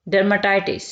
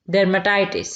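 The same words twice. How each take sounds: The two takes are said the same way.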